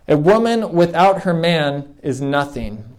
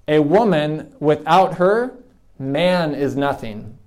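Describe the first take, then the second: First: It is said smoothly without any pauses. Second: It has pauses after woman and her.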